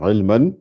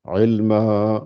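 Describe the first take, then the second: First: The word ends with a short vowel and n. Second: The word ends with a lengthened vowel, no n. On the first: This is the form read when continuing without stopping. "normalement, c'est marqué ilman" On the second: This is the form read when stopping at the verse end. "quand je m'arrête, je vais lire ilma"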